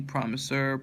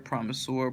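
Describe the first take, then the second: First: "promisor" ending in an unstressed -ser; reduced final syllable. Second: "promisor" ending in a full -sor. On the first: Reader going through a word list, "promisor" with a reduced -er ending. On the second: Reader going through a word list, "promisor" with a full -or ending. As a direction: say "promisor" as PROM-i-sore. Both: Shown as a demonstration.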